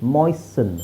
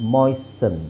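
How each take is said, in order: The two takes are said the same way.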